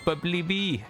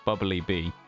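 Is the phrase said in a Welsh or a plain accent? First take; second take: Welsh; plain. First: It is said in a Welsh accent. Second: It is said in the speaker's plain accent. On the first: "It just sounds phenomenal" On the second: "me just saying it normally"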